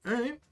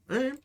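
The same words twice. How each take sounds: The two takes are said the same way.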